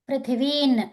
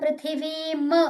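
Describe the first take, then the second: First: The word ends with an n sound. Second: The word ends with an m sound. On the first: The speaker calls it right. "ఇక్కడేమో న్ పృథివీన్" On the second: The speaker calls it wrong. "మ్ అని చదవద్దు"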